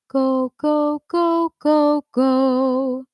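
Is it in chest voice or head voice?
head voice. It is said in a lighter head voice.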